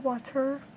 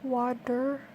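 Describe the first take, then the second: First: The middle T is a clear, crisp T. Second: The middle T sounds like a soft D. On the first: "I don't say water" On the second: "I'll say water like the T is actually a D"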